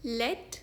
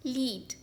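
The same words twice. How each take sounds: First: लेड rhymes with red; लेड, short e; lead as LED. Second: लीड rhymes with need; लीड, long ee; lead as LEED. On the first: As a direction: say लेड for the metal. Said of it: "इसका पहला pronunciation है". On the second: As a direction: say लीड for guiding. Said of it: "second pronunciation है". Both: Shown as a demonstration.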